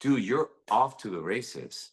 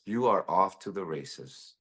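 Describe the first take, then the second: First: Said in the usual way. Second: "are" leaned on, drawn out and firm; stress on are. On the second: Real, not acted. Host reassuring guest, pressing "are" with a firm stress. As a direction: insist on it: you ARE off to the races.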